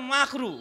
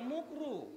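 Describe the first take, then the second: First: The first vowel sounds like 'a'. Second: The first vowel sounds like 'u'. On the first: The speaker calls it right. "শব্দটা হচ্ছে মাকরু।" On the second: The speaker calls it wrong. "হুজুররা মাকরু ঠিকভাবে বলে না, মুকরুতে বলে।"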